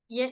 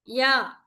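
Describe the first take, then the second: First: The vowel is a fronted 'eh' sound. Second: The vowel is an open 'ah' sound. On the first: The speaker calls it wrong. "don't say ye" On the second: The speaker calls it right. "pronounce straight"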